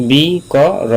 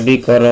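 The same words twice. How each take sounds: First: "বি ক র" drawn out, each syllable set apart and pitched higher; teacher slowly separating "বি ক র" for learners. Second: Said in the usual way. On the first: Shown as a demonstration. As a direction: sound out "বি", "ক", "র" slowly, one by one. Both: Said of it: "আমি ধীরস্থিরভাবে বা আস্তে আস্তে বলি".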